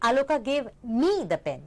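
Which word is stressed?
me. The stress falls on the word me. It was given to the speaker, not someone else. "यानी कि किसी और को"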